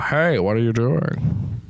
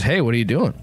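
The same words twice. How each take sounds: First: Slow, grand Ian McKellen voice; a slow regal British god voice; Ian McKellen impression. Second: Said in the usual way. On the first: Shown as a demonstration. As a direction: intone it like a stately old wizard. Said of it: "But Sir Ian McKellen". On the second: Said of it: "Is that what they say?".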